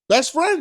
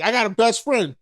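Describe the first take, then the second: First: BEST FRIEND pitched high for emphasis; emphatic repeat. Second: Said in the usual way. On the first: Real, not acted. Speaker insisting on how close she is, emphatic repeat. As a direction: punch out "Best friend" higher, as a point.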